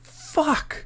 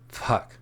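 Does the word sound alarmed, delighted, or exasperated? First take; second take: alarmed; exasperated. First: It is said with sudden alarm. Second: It is said with weary exasperation. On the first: Some big mistake has happened. "it means probably some big mistake has happened" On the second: The person cannot deal with this now. "that means maybe you're exasperated"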